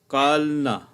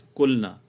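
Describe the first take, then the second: First: The first vowel is an open 'a' sound. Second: The first vowel is a rounded 'u' sound. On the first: The speaker calls it wrong. "it is not kalna" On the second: The speaker calls it right. "It is kulna"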